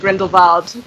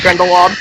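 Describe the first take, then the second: First: The last part begins with a V sound. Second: The last part begins with a W sound. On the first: It is the way the name is probably supposed to be said. "it probably is supposed to be" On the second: It is the plain American way of saying it. "I'm not really a poser about like pronouncing things in a non-American way, so I just say"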